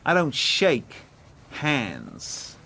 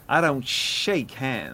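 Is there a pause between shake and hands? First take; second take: yes; no. First: There is a gap between shake and hands. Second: It flows without a gap before hands.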